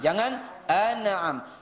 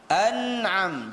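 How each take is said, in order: First: The n bounces quickly off its position. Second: The n is pressed and held before release. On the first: The speaker calls it wrong. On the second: The speaker calls it right. "letakkan dia di makhrajnya, tekan, kemudian baru di diangkat"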